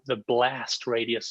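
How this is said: It is said in an American accent.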